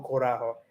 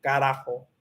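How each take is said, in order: First: Corajo with O in the first syllable; starts with O. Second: Carajo with A in the first syllable; starts with A. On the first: Learner showing the rejected version, O sound. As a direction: say corajo beginning "co". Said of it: "no O". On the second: Learner repeating the corrected word, A sound. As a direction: say carajo beginning "ca". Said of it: "empiezo con A, no O". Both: Shown as a demonstration.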